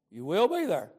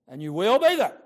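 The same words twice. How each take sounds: First: Said in the usual way. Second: Louder, stressing be in And you will be there; emphatic warning. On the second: Real, not acted. Preacher warns of the judgment.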